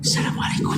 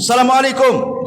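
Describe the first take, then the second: First: The greeting is said in a quiet voice. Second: The greeting is said in a loud voice. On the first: Others cannot hear the greeting. The speaker calls it wrong. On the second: The greeting is heard by others. The speaker calls it right. "Jadi dikeraskan, kencangkan kalau salam itu"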